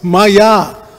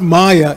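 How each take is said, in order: First: The first vowel is short. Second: The first vowel is long. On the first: It means by me. The speaker calls it right. "it's Maya. Just the opposite, spoken by me" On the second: It means illusion. The speaker calls it wrong. "It's not Maya"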